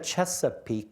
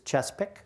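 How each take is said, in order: First: The word is said in full, all syllables. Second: The word is squeezed into two syllables. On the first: "It's not the Chesapeake" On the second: "everything is contracted to the two easiest syllables"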